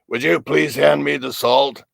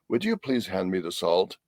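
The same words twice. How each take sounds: First: It is said in a harsh, demanding tone. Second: It is said in a kind, gentle tone.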